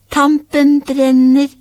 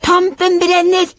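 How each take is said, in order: First: High, slow playful call; loud, drawn-out call. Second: Very high excited shriek; high-pitched gleeful yell. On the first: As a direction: stretch it out in a raised game voice. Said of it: "og da ropte de, ... litt lavere". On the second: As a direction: cry it out at the top of the register. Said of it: "skrek de ... så høyt de bare kunne". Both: A narrator's reading.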